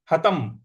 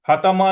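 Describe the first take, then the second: First: "हतम" ending on a closed m; closed halant ending. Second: "हतम" with an added a, hatama; wrong open ending. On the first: Teacher shows the halant, "हतम" read as hatam. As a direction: shut "हतम" on the m, no vowel after. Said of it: "हतम इस प्रकार से पढ़ना है". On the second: Teacher shows the mistake, "हतम" read as hatama. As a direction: end "हतम" on an open vowel after m. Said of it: "हतम नहीं पढ़ना है". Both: Shown as a demonstration.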